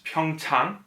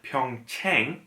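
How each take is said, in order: First: The second vowel is an open 'ah' sound. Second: The second vowel is like the 'a' in 'rang'. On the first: The speaker calls it right. "The correct vowel sound is ah" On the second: The speaker calls it wrong. "It's not a long A like rang"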